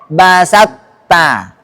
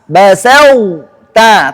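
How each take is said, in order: First: The emphatic sound merges fully into plain t. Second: The heavy emphatic quality is kept before t. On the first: The speaker calls it wrong. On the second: The speaker calls it right.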